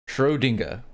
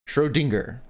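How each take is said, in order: Both takes have the same delivery.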